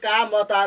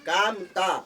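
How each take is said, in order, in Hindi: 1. म और त के बीच एक छोटा अ स्वर सुनाई देता है। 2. म सीधे त में जुड़ जाता है, बीच में कोई स्वर नहीं है। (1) "कामता नहीं" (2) "उच्चारण में अ नहीं आ रहा है"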